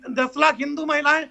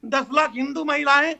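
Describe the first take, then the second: No difference in how they are said.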